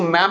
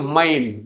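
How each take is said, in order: First: The vowel sounds like the one in 'cat'. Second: The vowel sounds like the one in 'time'. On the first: The speaker calls it wrong. "इसको मैम नहीं बोलेंगे" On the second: The speaker calls it right. "हम बोलेंगे माइम"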